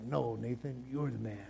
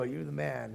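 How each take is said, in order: First: Lower, softer playful brush-off; a hushed, kidding return of praise; mock flattering reply. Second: Casual praise. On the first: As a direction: hand the compliment back, low and soft, as a joke. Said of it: "David probably turns around and is like". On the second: Pretend. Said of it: "You know how people go".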